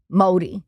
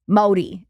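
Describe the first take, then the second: First: The middle consonant sounds like a D. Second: The middle consonant sounds like a D.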